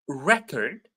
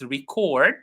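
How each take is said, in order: First: The stress is on the first syllable. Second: The stress is on the second syllable. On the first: It is a thing that was recorded. "when it is a noun, it's the first syllable" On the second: It is the action of recording. "when it is a verb, it's record"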